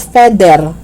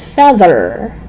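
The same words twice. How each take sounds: First: "feather" as "fedder"; hard D in "feather". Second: "feather" with buzzing TH; tongue out and humming mid "feather"; voiced TH. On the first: Teacher showing learners the mistake, "feather" with D. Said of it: "It's not feather". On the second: Teacher correcting learners, "feather" with voiced TH. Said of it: "voice T H words". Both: Shown as a demonstration.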